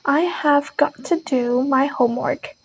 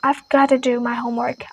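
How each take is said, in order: First: Each word is said fully and separately. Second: The words are reduced and run together.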